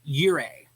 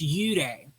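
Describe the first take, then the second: First: It is said with an English pronunciation. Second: It is said with a Japanese pronunciation.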